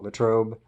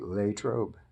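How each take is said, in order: First: It uses the widespread outsider pronunciation. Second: It uses the local old-timers' pronunciation. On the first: This is how most outsiders say it. The speaker calls it wrong. "a lot of people call it Latrobe" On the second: This is how long-time locals say it. The speaker calls it right. "it's really Latrobe uh, to the old timers there"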